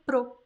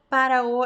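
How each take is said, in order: First: The words are squeezed into one short syllable. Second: Both words are said fully and separately.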